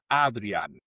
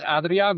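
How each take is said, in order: First: The name is said with Dutch pronunciation. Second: The name is said with Spanish pronunciation. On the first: "en holandés es Adrián" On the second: "y dices Adrián, me parece bien"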